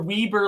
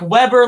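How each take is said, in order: First: The first syllable sounds like 'wee'. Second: The first syllable sounds like 'web'. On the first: "like wee wee like we're peeing like a baby" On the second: "like Chris Webber the basketball player"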